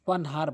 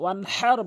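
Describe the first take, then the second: First: The h is a light, breathy sound. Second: The h is a deep sound from the throat. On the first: The meaning comes out wrong. The speaker calls it wrong. "বড় হার জায়গায় ছোট হা উচ্চারণ করে" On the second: The meaning is correct. The speaker calls it right. "হাটি হলকের মাঝখান থেকে উচ্চারণ করতে হবে"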